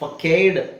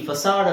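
First: The c is said as a k sound. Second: The c is said as an s sound. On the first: The speaker calls it wrong. "ಫಕೇಡ್ ಫ್ಯಾಕೇಡ್ ಆಗಲ್ಲ" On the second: The speaker calls it right. "FACADE ಫಸಾಡ್ ಅಂತ ಆಗುತ್ತೆ"

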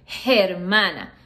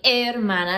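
First: The word starts with an audible h sound. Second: The word starts directly with the vowel sound. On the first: The speaker calls it wrong. "so you don't say hermana" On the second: The speaker calls it right. "like the H is not even there"

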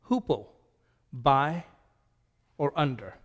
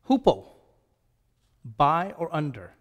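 Both takes have the same delivery.

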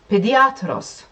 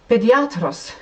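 No difference in how they are said.

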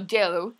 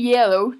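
First: The word begins with a 'j' sound. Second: The word begins with a 'y' sound. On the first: The speaker calls it wrong. "no yellow" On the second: The speaker calls it right. "Se dice yellow"

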